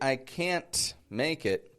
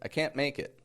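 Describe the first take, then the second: First: The T in can't is pronounced hard. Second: The T in can't is dropped. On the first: The speaker calls it wrong. "I don't say" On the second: The speaker calls it right. "I'm not saying that hard T"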